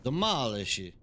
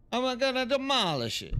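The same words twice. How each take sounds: First: Said in the usual way. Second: Much higher cartoonish voice on "demolish"; hammed-up mock villain; playful falsetto threat; silly voice. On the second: Mock voice repeating the command.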